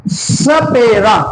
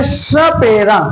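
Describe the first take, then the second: First: सपेरा stretched out slowly, the स clear; slow teaching demo of सपेरा; slow demo word. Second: Said in the usual way. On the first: Shown as a demonstration. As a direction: draw out सपेरा syllable by syllable. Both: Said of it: "अगला स का उच्चारण करें".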